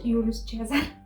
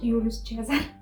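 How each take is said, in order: First: The name is said with a Romanian accent. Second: The name is said with a Romanian accent.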